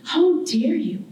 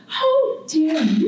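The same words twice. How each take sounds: First: "How dare you" with a lightly lifted, haughty "How" and a falling end; a proud homeland looking down on its child; graceful, condescending island. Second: Slow "How dare you", each word drawn out and pressed; graceful, condescending island. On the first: Barbados as a person scolding the artist who left, mild haughty tone. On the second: Barbados as a person scolding the artist again, slow stern condescension. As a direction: lean into the reproach, stretching every word. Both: Acted. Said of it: "very graceful, but yet condescending".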